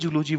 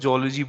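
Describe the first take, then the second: First: The first vowel is a long 'oo'. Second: The first vowel is an 'oh'. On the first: This is the way the speaker used to say it. "Literally जूलॉजी बोलता था" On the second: This is the way the speaker says it today. "आज मैं जोलॉजी बोलता हूँ"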